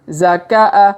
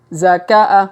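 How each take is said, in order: The two takes are said the same way.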